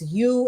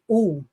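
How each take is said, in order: First: The letter is said the English way. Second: The letter is said as in other languages. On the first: "we pronounce the u as u in English" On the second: "in a lot of other languages, the u is really u"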